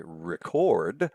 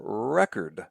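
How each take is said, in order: First: Record as re-CORD, slowly; stress on second syllable. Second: Record as REC-ord, slowly; stress on first syllable. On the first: Lecturer shows two ways to say it, record stressed re-CORD. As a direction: stress the end of record: ri-KORD. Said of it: "the more pronounced syllable is the second one". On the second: Lecturer shows the other way, record stressed REC-ord. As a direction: stress the start of record: REK-erd. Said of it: "the accent comes on the first syllable". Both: Shown as a demonstration.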